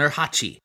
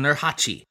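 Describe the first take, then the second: First: The middle consonant is a hard ch sound. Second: The middle consonant is a hard ch sound.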